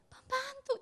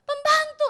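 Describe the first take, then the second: First: Said in the usual way. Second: Pembantu said much higher and louder, hammered home; emphatic answer. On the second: Acted. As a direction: shout the answer back for effect. Answer then repeated.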